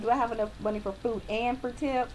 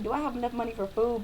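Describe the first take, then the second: First: "and" leaned on before "for tip"; stress on "and for tip". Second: Said in the usual way. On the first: Shown as a demonstration. Waitress corrects diners' thinking, stressing "and for tip". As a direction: add "and for tip" with clear emphasis. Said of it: "Be like". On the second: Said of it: "don't just think".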